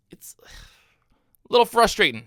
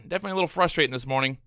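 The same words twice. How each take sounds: First: Whispered under his breath, drawn out slowly; frustrated whisper. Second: Said in the usual way. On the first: Real, not acted. Trader to viewers after missing dip buys, slow whisper. Frustrated aside while trading.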